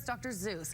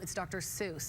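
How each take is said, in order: First: The second word begins with a Z sound. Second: The second word begins with an S sound. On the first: This is the speaker's own Canadian way. "I'm pretty sure it's Doctor Zeus" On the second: This is how others correct the name. "everyone's like, um, it's Doctor Seuss"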